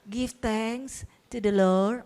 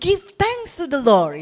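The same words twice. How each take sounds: First: It is said flatly with little energy. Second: It is said livelily with strong expression. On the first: The speaker calls it wrong. "Nggak bisa dengan" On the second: The speaker calls it right. "syukur itu harus dengan intonasi"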